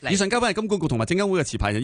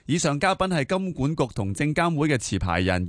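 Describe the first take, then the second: First: It is read very quickly, about twice normal pace. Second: It is read at a normal broadcast pace. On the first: "想唔想试下做女主播啊？" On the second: "读个慢版先啦，一个正常速度就是"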